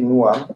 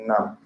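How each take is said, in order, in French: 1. Les deux mots se disent séparément, sans contraction. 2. Les deux mots se fondent en une seule syllabe contractée. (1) "Tu peux dire nous am" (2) "comme tu dis nam"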